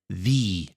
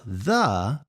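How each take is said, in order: First: The word is said in its emphatic highlighting form. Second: The word is said in its ordinary unemphatic form. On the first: "but it's the" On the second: "It's not the"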